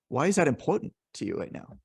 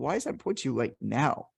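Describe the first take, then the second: First: The stress falls on the word important. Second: The stress falls on the word now. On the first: The question invites talk about how much it matters. "then they're going to talk about the importance" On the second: The question invites talk about the timing. "they're going to talk to you about the timeliness aspect of it"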